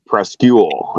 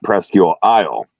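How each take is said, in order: First: Presque Isle said the locals' shortened way; local pronunciation. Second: Presque Isle with "Isle" as its own word; non-local pronunciation. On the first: Officer correcting the driver on Presque Isle, clipped local pronunciation. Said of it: "locals just call it". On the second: Officer quoting the rejected name, Presque Isle in full. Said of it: "It's not Presque Isle". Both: Retold or imitated.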